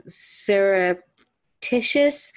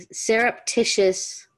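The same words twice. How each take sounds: First: "surreptitious" slowly, unsure, rising at the end; unsure pronunciation. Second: "surreptitious" said again slowly, settling down at the end; careful retry. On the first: Reader stumbling on a hard word, testing it. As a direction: test out "surreptitious" slowly like a question. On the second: Reader second-guessing a word, trying it again. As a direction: land "surreptitious" with a falling close. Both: Shown as a demonstration. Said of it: "is that how you pronounce that?".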